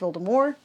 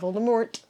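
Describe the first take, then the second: First: The name is said differently from its spelling. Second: The name is said just as it is spelled. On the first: The speaker calls it right. "It's pronounced Voldemort" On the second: The speaker calls it wrong. "not Voldemort, even though that's how it's spelled"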